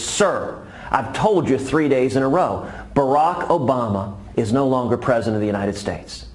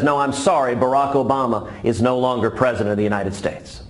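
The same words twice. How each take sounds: First: Louder, exasperated insistence; a fed-up guard repeating himself; frustrated Marine loses patience with the old man; visibly frustrated Marine. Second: Polite Marine. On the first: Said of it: "the Marine is visibly frustrated". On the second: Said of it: "The Marine says". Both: Acted.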